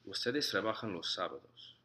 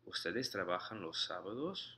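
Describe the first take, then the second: First: The pitch falls at the end. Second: The pitch rises at the end. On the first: It states a fact. "in a statement, sort of goes down in a way" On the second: It asks a question. "as a question, the pitch of your voice rises"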